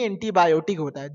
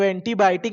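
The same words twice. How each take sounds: First: एंटीबायोटिक as "entibayotik"; teacher's correct एंटीबायोटिक; correct pronunciation. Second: एंटीबायोटिक said as "entibaitik"; old-timer's एंटीबायोटिक, yo dropped; wrong pronunciation. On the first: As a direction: say एंटीबायोटिक properly with yo. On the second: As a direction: imitate the elders' एंटीबायोटिक, "entibaitik". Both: Shown as a demonstration. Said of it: "एंटीबायोटिक नहीं".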